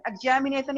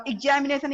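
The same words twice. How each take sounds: First: "examination" in attempted American, opening on "eg"; American accent. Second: "examination" said the Indian English way, opening on "ig"; Indian accent. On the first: Teacher contrasting accents for learners, attempted American pronunciation of "examination". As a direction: say "examination" with an open "eg" first syllable. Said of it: "examination in American accent".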